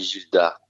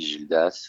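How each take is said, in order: First: The name ends without an s sound. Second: The name ends with an s sound. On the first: The speaker calls it right. "on dit Gilda" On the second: The speaker calls it wrong. "Il le prend pas mal de toute façon si on dit Gildas"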